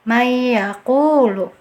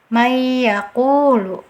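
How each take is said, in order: Both takes have the same delivery.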